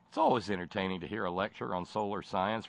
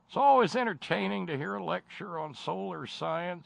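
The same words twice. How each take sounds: First: It is read in the speaker's ordinary voice. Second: It is read in an imitated old comedian's voice.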